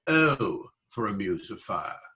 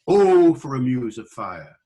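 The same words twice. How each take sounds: First: The 'O' has a standard modern vowel. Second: The 'O' has a Welsh-like vowel. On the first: This is the modern pronunciation. The speaker calls it wrong. "not O for a muse of fire" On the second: This is the older pronunciation. The speaker calls it right. "You hear it in Wales"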